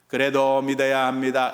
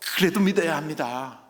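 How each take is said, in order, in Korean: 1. 거칠고 무관심한 어조로 말해졌습니다. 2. 부드럽고 자애로운 어조로 말해졌습니다. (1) "이렇게 하면 안 돼요" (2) "하나님의 그 안타까운 마음으로"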